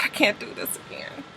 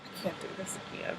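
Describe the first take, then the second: First: Whispered, hopeless I can't; real defeated whisper; despairing whisper. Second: Barely audible, faster whisper; real exhausted near-silent whisper; faint rushed whisper. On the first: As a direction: breathe it out, worn down. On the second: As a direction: let it slip out almost silently and fast. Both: Real, not acted.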